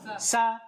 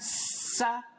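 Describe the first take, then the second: First: The s goes straight into the vowel. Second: A held, vowelless s sound comes before the vowel. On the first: The speaker calls it right. "langsung sa" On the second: The speaker calls it wrong. "Jangan sa"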